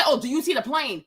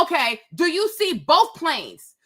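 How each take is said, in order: First: Offhand and vague, "the plane" tossed away; careless mock question. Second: Slow, with "both" weighted and clear; stress on both. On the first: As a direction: toss it off like the lazy controller. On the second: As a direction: lean on the word both so no one can misread it. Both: Shown as a demonstration. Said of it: "Don't just say".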